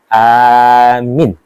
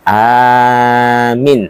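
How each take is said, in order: The two takes are said the same way.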